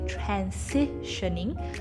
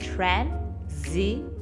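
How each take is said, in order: First: The middle consonant is a hissing S sound. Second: The middle consonant is a buzzing Z sound. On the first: The speaker calls it wrong. "it looks like an S sound, so we want to say transitioning" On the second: The speaker calls it right. "the S sound changes to a Z sound"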